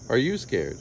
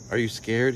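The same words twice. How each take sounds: First: "you" stressed, falling away after it. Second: Said in the usual way. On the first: A narrator's reading. Boy asks his friend the same question back, stress on "you".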